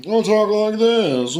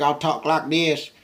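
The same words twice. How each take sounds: First: Very high, loud, drawn-out silly voice; put-on home voice. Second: High, loud, slow character voice; put-on work voice. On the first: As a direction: stretch it out in a far higher at-home voice. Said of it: "when I'm at home". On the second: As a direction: drag it out in a higher made-up work voice. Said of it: "my work voice be like this". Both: Shown as a demonstration.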